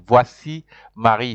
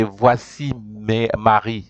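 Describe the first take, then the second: First: "Voici Marie" run together smoothly as one phrase; French pronunciation. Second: "Voici mes, Marie" slowed, syllable by syllable; French pronunciation. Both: Shown as a demonstration. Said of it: "they pronounce it".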